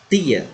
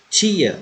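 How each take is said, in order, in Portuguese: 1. O t é uma oclusiva explosiva curta. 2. O t tem um som chiado, parecido com ch. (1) "o som é explosivo" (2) "no português apresenta um certo chiado"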